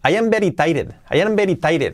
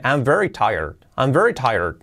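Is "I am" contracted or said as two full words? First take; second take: full; contracted. First: "I am" is said as two full words. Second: "I am" is contracted into one syllable. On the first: This is how a Spanish-speaking learner says it. "Si dices, por ejemplo, I am very tired" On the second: This is how a native speaker says it. "si un nativo dice, I'm very tired, cambia totalmente"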